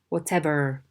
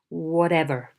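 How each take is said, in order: First: The middle T is a clear T. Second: The middle T is a quick flap. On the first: The speaker calls it right. "They should say" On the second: The speaker calls it wrong. "avoid the flapping of T"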